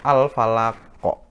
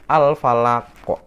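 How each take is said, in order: The two takes are said the same way.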